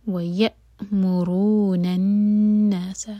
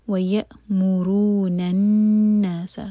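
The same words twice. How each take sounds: First: ویأمرون الناس slowly with a clean stop on the ء; cut-off hamza. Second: الناس with the doubled ن held nasally for two seconds; nasal hold on noon. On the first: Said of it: "حمزہ پر cut off sound". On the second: Teacher shows the ghunna in الناس to a student, slow. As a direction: hum the ن in الناس, drawn out slowly. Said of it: "نون پر شدہ ... غنہ". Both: Shown as a demonstration.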